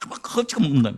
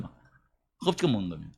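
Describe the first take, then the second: First: Said in the usual way. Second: 허겁지겁 said much lower and softer, in a changed voice; 허겁지겁 hushed and low, picturing the greedy eating; hushed retelling. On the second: Shown as a demonstration. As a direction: drop low and quiet on 허겁지겁 먹는 겁니다.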